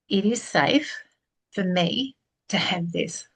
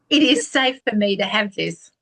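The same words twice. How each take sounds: First: It is said slowly. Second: It is said fast.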